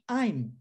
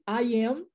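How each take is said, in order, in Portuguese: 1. As palavras se juntam em uma sílaba rápida. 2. Duas palavras completas são ditas separadamente. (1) "Eu faço uma contração, tá vendo? Fica mais rápido" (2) "ao invés de I am"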